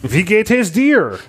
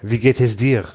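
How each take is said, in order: First: It has an American accent like George W. Bush. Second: It has a French accent.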